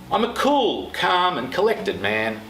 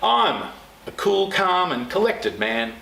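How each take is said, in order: First: The word cool carries the strongest stress. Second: The word I'm carries the strongest stress. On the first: "Notice the pace is slower" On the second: "emphasise the next word every time you say the sentence"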